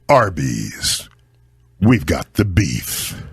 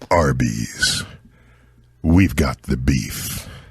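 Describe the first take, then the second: First: It is said with more energy and emphasis. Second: It is said in a deep, sincere voice.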